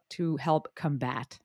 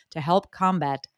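First: "combat" stressed on BAT; stress on second syllable. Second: "combat" stressed on COM; stress on first syllable. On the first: Host retrying a bio phrase, slow "combat" stressed on second syllable. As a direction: slowly say "combat" as cum-BAT, weak first vowel. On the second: Host reading guest's bio aloud, "combat" stressed on first syllable. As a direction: say "combat" as COM-bat, full first vowel. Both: Shown as a demonstration. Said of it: "emphasis on the different syllable there".

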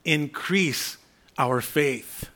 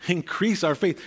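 First: Drawn-out, deliberate plea; slow plea. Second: Said in the usual way. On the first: Shown as a demonstration. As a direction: stretch each word slowly, pleading. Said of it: "the apostles said to the Lord".

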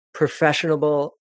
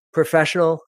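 First: Professional said as "professionable", extra syllable before the end; slip of the tongue. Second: Said in the usual way. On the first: Real, not acted. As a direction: stumble into "professionable" then fix it.

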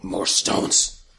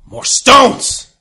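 First: Deep monster growl of hunger; low-pitched creature demand. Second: High, loud monster yell; explosive hungry-creature shout. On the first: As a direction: rumble it low as a hungry beast. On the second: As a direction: yell the demand as a ravenous beast. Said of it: "Don't yell at me". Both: Acted.

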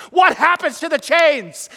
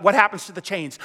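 First: Emphatic repeat. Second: Said in the usual way. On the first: Real, not acted. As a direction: press the crowd for the answer. Preacher repeats question to crowd.

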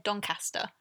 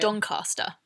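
First: Doncaster as DON-cass-tuh; short-A Doncaster. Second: Doncaster as DON-cah-stuh; long-A Doncaster. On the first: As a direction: Doncaster with the A of cat in the middle. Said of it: "I say in my head Doncaster". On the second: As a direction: Doncaster with AH in the middle. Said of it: "But I say Doncaster". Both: Shown as a demonstration.

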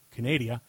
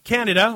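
First: "Canada" said as "kuh-NAY-dee-uh"; mock Canadian pronunciation. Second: Said in the usual way. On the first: Host mocking how Canadians say "Canada", pronounced "kuh-NAY-dee-uh". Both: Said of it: "or as the Canadians say".

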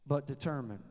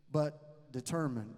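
First: Said in the usual way. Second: "determined" drawn out slowly and leaned on; slow down and press "determined"; slow stress on determined. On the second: Shown as a demonstration.

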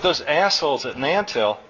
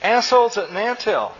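First: Said in the usual way. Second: High-pitched, chirpy parroting; chirping child. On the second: A narrator's reading. Small son repeating dad's rude phrase, chirpy. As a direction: chirp it back like a little kid. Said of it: "chirped Chew".

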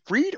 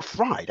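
First: "Fried" said with a long ee, like "freed". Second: "Fried" said with a long i, like cooked food; Fried as "fryed". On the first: Host unsure of the surname, "Fried" pronounced "freed". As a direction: say "Fried" to rhyme with "need". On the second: Host unsure of the surname, "Fried" pronounced to rhyme with "ride". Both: Shown as a demonstration. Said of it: "is he Fried or Fried".

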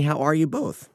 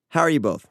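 First: Voice cracking. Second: Said in the usual way. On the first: Real, not acted. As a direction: voice cracks on both. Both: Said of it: "My voice just cracked".

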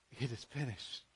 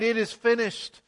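First: Much softer, lower, almost breathed; hushed and low. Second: Raised, louder declaration; mild cried out. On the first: Preacher echoing Jesus' dying words, hushed and low. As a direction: let it fall away quietly, like a last breath. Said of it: "he was saying". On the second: Preacher voicing Jesus' cry from the cross, raised and louder. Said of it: "When Jesus cried". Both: Retold or imitated.

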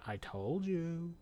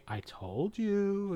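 First: Slow, soft and unbothered told-you; very calmly. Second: Slow, lilting, quietly smug told-you; drawn out like a gentle sing-song; calm told-you. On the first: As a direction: let it land, slow and quietly smug. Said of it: "very calmly". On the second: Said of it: "in his own voice". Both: Retold or imitated.

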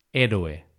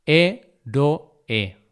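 First: Said in the usual way. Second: "Héroe" broken into hé, ro, e; syllable by syllable. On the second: Shown as a demonstration. Teacher showing two open vowels apart, syllable by syllable. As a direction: say "Héroe" in three separated syllables. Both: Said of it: "esa separación de sílabas".

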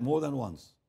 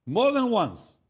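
First: Said in the usual way. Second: "More than once" high and loud, falling; preacher's loud, emphatic "More than once"; emphatic repeat. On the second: Real, not acted. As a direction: punch out "More" high, then fall through "than once".

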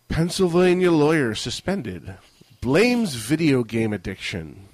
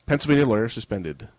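First: Higher, punchy news headline; headline read. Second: Said in the usual way. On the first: Acted. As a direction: announce it like a newscaster. Reads headline aloud.

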